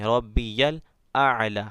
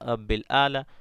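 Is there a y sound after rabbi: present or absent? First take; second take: present; absent. First: It is said rabbiyal, with a y sound. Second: It is said rabbil, without a y sound. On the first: The speaker calls it right. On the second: The speaker calls it wrong.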